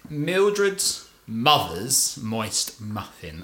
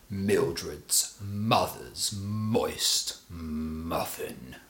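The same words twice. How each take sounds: First: It is said in a light, plain voice. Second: It is said in a deep, grave voice.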